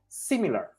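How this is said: The word is pronounced the English way. "but in English we say similar"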